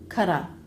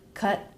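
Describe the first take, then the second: First: The T is a quick flap into a vowel. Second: The T is an abrupt unreleased stop. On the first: "make that a flap T" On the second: "stop the air"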